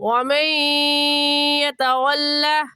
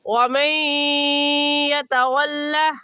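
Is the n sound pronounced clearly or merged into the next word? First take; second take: merged; merged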